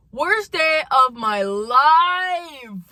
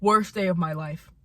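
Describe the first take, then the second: First: "life" drawn out long, loud and high; dramatic wail. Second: Said in the usual way. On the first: Real, not acted. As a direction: wail "Worst day of my life", stretching every word slowly.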